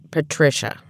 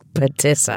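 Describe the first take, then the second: First: The middle is said with a 'trish' sound. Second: The middle is said with a 'tiss' sound. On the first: The speaker calls it right. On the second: The speaker calls it wrong. "But what did I say?"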